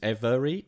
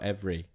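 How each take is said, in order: First: The word is said with three syllables. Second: The word is said with two syllables. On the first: "Three syllables" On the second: "two syllables"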